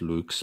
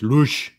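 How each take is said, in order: First: It is said the High German way. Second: It is said the Low German way. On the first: "in High German it's Lux" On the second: "in Low German it's Lusch"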